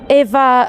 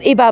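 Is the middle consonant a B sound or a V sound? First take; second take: V; B. First: The middle consonant is a V sound. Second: The middle consonant is a B sound. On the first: This is how the name is said at home. "it's Eva for us" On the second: This is how locals say the name. "I guess they pronounce it Eba"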